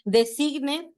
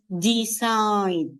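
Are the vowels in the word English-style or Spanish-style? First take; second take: Spanish-style; English-style. First: The vowels are said like Spanish letters. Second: The E sounds like 'ee', the I like 'eye'. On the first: The speaker calls it wrong. "así me lo pronuncian. Designed, no, no, no" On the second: The speaker calls it right. "la E en inglés suena como I. Y la I suena como the I"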